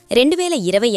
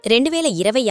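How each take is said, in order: Both takes have the same delivery.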